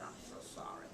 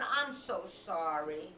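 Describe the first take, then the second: First: Whispered apology. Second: Slow, low, drawn-out apology; sorrowful apology. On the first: Rachel apologizes once tears fall, barely audible whisper. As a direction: whisper it as a small, sad echo. Repeats the tearful apology softly. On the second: Rachel apologizes with tears on her cheeks, slow sorrowful voice. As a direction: apologize slowly, lightly acted sorrow. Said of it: "tears went down her cheeks". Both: A narrator's reading.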